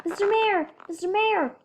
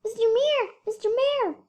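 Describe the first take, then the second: First: Corrected voice. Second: Wrong voice. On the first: A narrator's reading. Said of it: "Brian called". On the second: Acted. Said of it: "Sorry, wrong voice".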